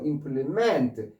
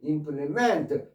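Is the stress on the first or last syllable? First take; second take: last; last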